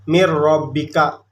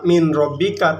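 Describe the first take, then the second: First: The n merges fully into the following r. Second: The n is clearly sounded before the r. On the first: The speaker calls it right. "tapi dibacanya mir robbika" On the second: The speaker calls it wrong. "enggak dibaca min robbika"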